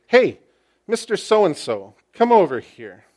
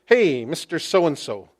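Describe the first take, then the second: First: A high, loud hail on Hey, then firm; intentional call. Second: Said in the usual way. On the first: Acted. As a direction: call him over with great intention. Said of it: "That is with great intentionality". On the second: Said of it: "Quite literally translated".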